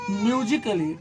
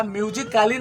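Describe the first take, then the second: First: म्यूजिकली as myu-ji-kuh-lee, short reduced vowel; correct pronunciation. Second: म्यूजिकली misread as myu-ji-KAA-lee, long aa; wrong pronunciation. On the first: Teacher modelling the rule for students, म्यूजिकली with short "kuh-lee". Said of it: "इसको पढ़ना है". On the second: Teacher showing students the misreading, म्यूजिकली with long "kaa-lee". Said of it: "नहीं पढ़ना है". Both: Shown as a demonstration.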